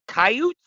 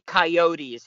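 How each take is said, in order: First: It is said Canadian-style, without the final e. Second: It is said American-style, with the final e.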